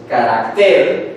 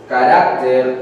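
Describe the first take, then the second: First: "carácter" slowly as ca-rac-TER, stressed on the end; stress on last syllable. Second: "carácter" slowly as ca-RAC-ter, stressed on the middle; stress on middle syllable. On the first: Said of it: "y otra palabra es carácter". ("carácter" como aguda, despacio: ca-rac-TER) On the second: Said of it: "carácter con tilde". ("carácter" como grave, despacio: ca-RAC-ter) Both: Shown as a demonstration.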